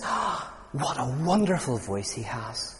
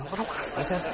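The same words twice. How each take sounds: First: Slow, soft, swooning over a singer; dreamy admiring soldier. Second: Higher, softer, starry-eyed swoon; higher dreamy admirer. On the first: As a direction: sigh it out like an opera fan lost in the music. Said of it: "one of the soldiers turns to the others and says". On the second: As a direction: breathe it out, higher and more lovestruck. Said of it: "You know". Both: Retold or imitated.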